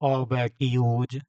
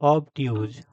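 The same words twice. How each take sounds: First: The word is stretched out slowly. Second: The word is said short and crisp. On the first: The speaker calls it wrong. "इतना खींच के क्यों बोल रही है? ... ऐसे नहीं बोलना बेटा" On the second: The speaker calls it right. "सीधा बोल रहे ना"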